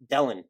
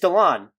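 First: The second syllable sounds like 'len'. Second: The second syllable sounds like 'lon'. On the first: The speaker calls it wrong. "I just want to call him Dellen" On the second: The speaker calls it right. "It's Delon"

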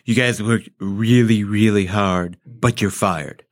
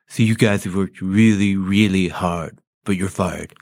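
First: It is said with an open mouth. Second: It is said with pursed lips.

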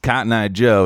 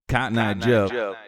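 First: The phrase is said once with no echo. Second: The phrase echoes several times after itself. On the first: "it's not just Cotton Eye Joe" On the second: "there's also a lot of delay present"

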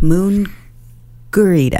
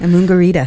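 First: The word is said slowly, parts kept apart. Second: The word is said quickly, run together. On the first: The speaker calls it right. "much better" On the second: The speaker calls it wrong. "Don't say it so fast. It sounds weird"

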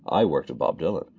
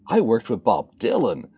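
First: It is said in a plain, matter-of-fact tone. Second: It is said in an amazed, delighted tone. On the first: He is simply name-dropping. The speaker calls it wrong. "it's not just" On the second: He is celebrating an unexpected dream come true. The speaker calls it right. "It's like, ... Inflection is everything"

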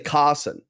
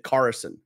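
First: The R in the middle is not pronounced. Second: The R in the middle is clearly pronounced. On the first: This is the speaker's own non-American pronunciation. "Like I would say Carson" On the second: This is how an American would say it. "They would say Carson, right? They would hit the R in the middle of the word"

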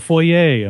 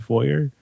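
First: The word is pronounced in a French way. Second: The word is pronounced in an English way. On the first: "they pronounce them in the French way" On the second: "we call it a foyer"

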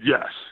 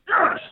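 First: It is said weakly and half-heartedly. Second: It is screamed loudly.

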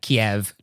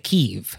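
First: The city name is said the Russian way. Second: The city name is said the Ukrainian way. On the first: It follows the Russian naming, a political choice. "I'm going to say the Russian pronunciation" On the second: It follows the local Ukrainian naming. "if you wanted to do the Ukrainian pronunciation"

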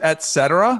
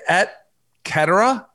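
First: It is said with the usual English pronunciation. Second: It is said with a Latin-style pronunciation. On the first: "As opposed to" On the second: "it's a proper Latin pronunciation"

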